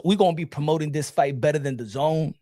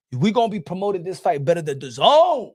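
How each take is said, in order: First: Said in the usual way. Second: Emphatic boast landing on a raised, stretched Zone; stress on ZONE. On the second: Real, not acted. Repeats boast, punching the last word.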